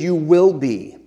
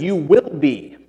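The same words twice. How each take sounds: First: "You will be" with will pressed firm and louder; stress on will. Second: "You will be" with will pressed firm; stress on will. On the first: Preacher repeating Jesus' promise, "will" stressed. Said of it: "not if you're scared". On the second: Preacher insisting to the church, "will" stressed. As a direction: lean hard on "will" in "You will be". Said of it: "Not you might be". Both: Shown as a demonstration.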